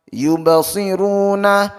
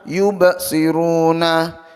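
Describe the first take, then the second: First: The word flows smoothly without a break. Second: The word has a break after the bounce. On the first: The speaker calls it right. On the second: The speaker calls it wrong.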